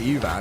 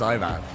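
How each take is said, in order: First: The name begins with a vowel other than 'eye'. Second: The name begins with an 'eye' sound. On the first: The speaker calls it wrong. "It's not" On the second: The speaker calls it right. "Like iRobot"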